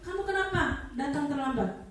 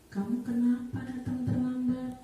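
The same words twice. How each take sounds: First: It is said in a loud, harsh, scolding tone. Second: It is said in a softer, disappointed tone. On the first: The teacher is punishing the child. "Guru yang posisinya selalu menghukum dengan nada yang keras" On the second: The teacher is making the child feel guilty. "Kalau posisi pembuat merasa bersalah"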